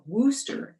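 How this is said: It is said the New England way.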